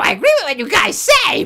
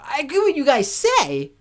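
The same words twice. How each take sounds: First: It is said in a cartoon Toad voice. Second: It is said in his normal voice.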